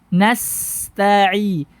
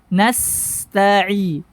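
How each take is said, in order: Both takes have the same delivery.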